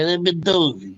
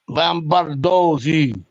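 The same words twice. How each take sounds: First: The name is said with an American accent. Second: The name is said with an Italian accent. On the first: "The Americans say" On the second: "That's how you say it in Italian"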